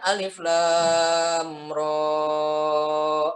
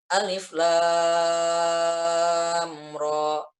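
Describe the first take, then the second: First: The final 'ro' vowel is held long. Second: The final 'ro' vowel is held only briefly. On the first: The speaker calls it wrong. "Bukan alif lam ro. Salah" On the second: The speaker calls it right. "Ro-nya dibaca dua harokat saja panjangnya"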